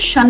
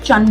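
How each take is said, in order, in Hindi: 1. इस एंडिंग की शुरुआत 'sh' ध्वनि से होती है। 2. इस एंडिंग की शुरुआत 'ch' ध्वनि से होती है। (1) "शन नहीं बोलते" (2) "चन बोलते हैं"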